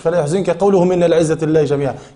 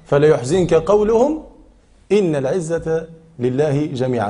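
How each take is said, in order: First: It runs on with no pause after قولهم. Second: It has a pause after قولهم. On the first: Their saying that all honor belongs to God grieves you. The speaker calls it wrong. "مش" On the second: Do not grieve at their words; all honor belongs to God. The speaker calls it right. "هذا معنى الوقف"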